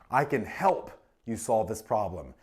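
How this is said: The stress falls on the word help. Assistance is being offered. "Emphasizes what? The assistance"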